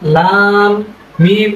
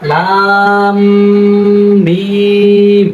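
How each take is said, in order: First: The m is said plainly without a nasal hum. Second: The m is held with a light nasal hum. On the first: The speaker calls it wrong. "এভাবে না বলে" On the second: The speaker calls it right. "একটু হালকা করে আমরা গুণনা করবো"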